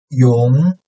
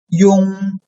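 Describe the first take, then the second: First: The pitch rises from mid to high. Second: The pitch stays high and level.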